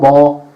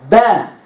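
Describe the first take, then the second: First: The vowel is said without spread, smiling lips. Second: The vowel is said with spread, smiling lips. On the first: The speaker calls it wrong. "it's not ba" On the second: The speaker calls it right. "smile at it"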